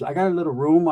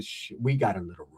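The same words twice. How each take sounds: First: Said in the usual way. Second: Low, soft mock seduction; low suggestive echo. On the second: Answering her offer of a room, low suggestive murmur. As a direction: drop it low and hushed, flirtatiously.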